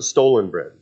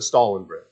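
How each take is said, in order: First: The first word sounds like the word stolen. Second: The first word sounds like the name Stalin. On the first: "How many pronounce it Stolen Bread? Steal something" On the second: "How many pronounce it Stalin Bread? Like Joseph Stalin"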